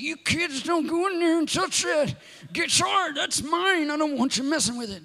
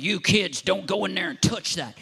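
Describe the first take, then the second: First: Put-on much higher, strained old grandpa shout; high, hammed-up grandpa yelling at the kids. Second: Lightly voiced old grandpa warning; a hint of a stern grandpa; a mild take on grandpa shooing the kids off. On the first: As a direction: bark it out like a cranky old grandpa guarding his guitar. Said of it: "he actually kinda talked like this". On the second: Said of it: "that was my grandpa voice".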